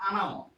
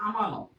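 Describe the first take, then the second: First: আনামত, with ন and ম swapped; village pronunciation. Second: Said in the usual way. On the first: Shown as a demonstration. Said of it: "গ্রামের মধ্যে এরকম বলে কিন্তু". (গ্রাম্য উচ্চারণে আনামত) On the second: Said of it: "আমরা যেটা বলি".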